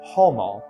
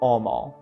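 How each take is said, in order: First: The word begins with an H sound. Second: The word begins with no H sound. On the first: It marks an educated, upper-class speaker. "among the elite classes, they might have said" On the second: It marks a common, lower-class speaker. "Among common classes, they might have said"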